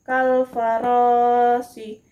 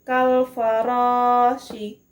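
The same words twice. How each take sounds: Both takes have the same delivery.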